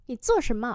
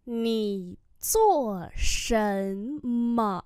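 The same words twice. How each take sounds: First: Said in the usual way. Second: Nǐ zuò shen me drawn out; slow teacher demo; very slow model. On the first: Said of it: "slow repeat follows". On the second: Shown as a demonstration. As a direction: say each syllable slowly for learners. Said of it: "slow model repeat".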